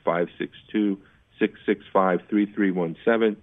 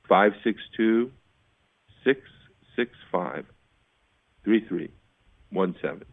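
First: The number is said at a normal, quicker pace. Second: The number is said more slowly.

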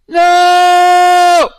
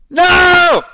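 First: It is a loud no with warmth. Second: It is a loud, harsh no.

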